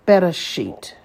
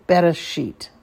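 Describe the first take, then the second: First: Teacher sounds out Bereshit; careful Hebrew model reading. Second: Said in the usual way. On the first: Shown as a demonstration. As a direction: model Bereshit for students to copy, each syllable clear. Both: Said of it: "For example".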